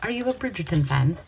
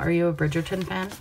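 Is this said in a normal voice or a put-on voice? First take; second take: put-on; normal. First: It is said in a put-on period-drama voice. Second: It is said in the speaker's ordinary voice.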